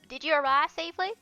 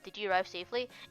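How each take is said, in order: First: It is said in a put-on mom voice. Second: It is read in the speaker's plain voice.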